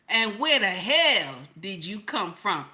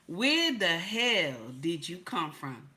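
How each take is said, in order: First: It is said in a put-on old woman's voice. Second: It is said in the speaker's own voice.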